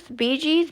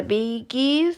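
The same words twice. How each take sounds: First: "Bee Gees" with G as in "jeans", higher; soft J sound in "Bee Gees", pitched up; soft-G pronunciation. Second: "Bee Gees" with G as in "geese"; hard G in "Bee Gees"; hard-G pronunciation. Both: Real, not acted. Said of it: "I don't know".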